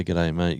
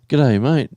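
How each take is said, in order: First: Said in the usual way. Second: Higher, louder hearty G'day, mate; broad Aussie greeting. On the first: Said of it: "as soon as I say". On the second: Retold or imitated. Reading out a viewer's comment, broad Aussie greeting. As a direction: sing out the G'day like a proper Aussie. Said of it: "as soon as I say, "G'day, mate," you think, "Okay, they're Australian".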